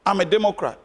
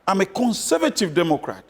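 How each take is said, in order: First: Said in the usual way. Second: Single out "conservative" as the key word, set apart from the plain label; "conservative" given weight before Democrat; stress on conservative. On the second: Real, not acted. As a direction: lean on "conservative" with a falling tune.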